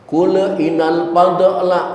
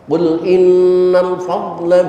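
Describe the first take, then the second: First: The l bounces with an added vowel after it. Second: The l is held without any added vowel. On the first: The speaker calls it wrong. "jangan dibaca sampai terdengar baca kula... banjir kolkolah" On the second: The speaker calls it right. "Bacalah tanpa pantulan kolkolah"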